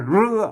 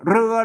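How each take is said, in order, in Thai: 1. คำนี้ขึ้นต้นด้วยเสียง r 2. คำนี้ขึ้นต้นด้วยเสียง r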